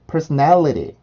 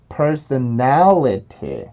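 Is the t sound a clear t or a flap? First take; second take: flap; clear t. First: The t is a quick, soft flap sound. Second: The t is a clear, released t sound. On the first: "여기 있는 T 발음은 플랩이 될 수가 있습니다" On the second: "발음 기호대로 한번 발음을 해볼게요"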